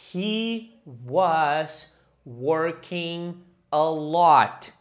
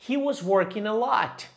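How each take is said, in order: First: It is said at normal speed. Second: It is said fast.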